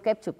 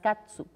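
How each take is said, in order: First: The word is said with an e and ch. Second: The word is said with an a and ts. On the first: This is the form used in Spain. "como soy de España, digo ketchup" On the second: This is the form used in Mexico. "en México se dice más catsup"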